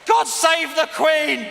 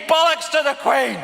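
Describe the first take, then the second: First: Mock patriotic shout. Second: Defiant shout. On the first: Chanting the anthem line. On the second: Real, not acted. Shouting own rude version.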